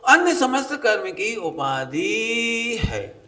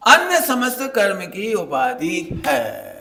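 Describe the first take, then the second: First: Very slow, every word drawn out; slow emphatic reading. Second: Slow, loud, each word weighed; slow emphatic reading. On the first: Preacher repeating the scripture line very slowly. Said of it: "देखो लिखा है". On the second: Preacher to the children, reading the line slowly and loudly. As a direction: read the scripture line out slowly and firmly. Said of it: "अब बताओ, कितना साफ साफ लिखा है". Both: Shown as a demonstration.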